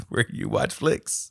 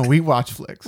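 First: Laughing. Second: We said firmly and stressed; correcting the word we. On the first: Real, not acted. Fumbles tagline while laughing. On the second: Shown as a demonstration. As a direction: stress on we in we watch flicks. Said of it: "Where, no".

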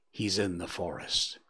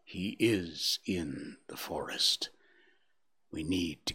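First: Said in the usual way. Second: Slow, breathy near-whisper; strange hushed inflection. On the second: A narrator's reading. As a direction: hush it, as if afraid to name him. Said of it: "repeated with a strange inflection".

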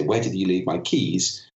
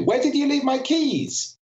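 First: Said in the usual way. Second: Very high, agitated question at an even pace; high-pitched arousal. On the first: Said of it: "pitch is very important". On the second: Shown as a demonstration. Speaker showing an audience how pitch indicates arousal, high and agitated. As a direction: pitch it right up, emotionally worked up. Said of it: "a very different emotional impact".

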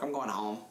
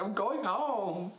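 First: Said in the usual way. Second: High, drawn-out mock wail; mock tearful. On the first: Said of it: "Then I went to my boss". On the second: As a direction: stretch it out like a comic crying announcement. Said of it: "I can't stop crying".

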